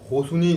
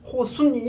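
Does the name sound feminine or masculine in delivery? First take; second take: masculine; feminine. First: It is said in a tough, manly way. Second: It is said in a soft, girlish way.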